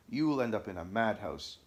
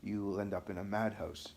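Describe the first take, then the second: First: Mildly menacing warning; threatening. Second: Understated remembered threat, evenly delivered; echoing threat. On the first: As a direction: deliver an understated threat. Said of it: "B began to threaten". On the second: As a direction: recall the menace, held back. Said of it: "B's threats kept echoing in my ears". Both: A narrator's reading.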